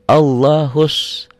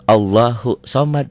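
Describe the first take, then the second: First: Allahu runs straight into a doubled s sound. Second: Allahu ends on a vowel before a separate somad. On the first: The speaker calls it right. "Dari sini nyambar ke sini" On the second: The speaker calls it wrong.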